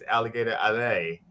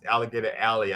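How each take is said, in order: First: The last word ends with an 'ay' sound. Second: The last word ends with an 'ee' sound. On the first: It tells drivers to keep going. The speaker calls it right. "I think it's Alligator Alley. Like to go" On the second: It names a narrow lane. The speaker calls it wrong. "I don't think it's Alligator Alley"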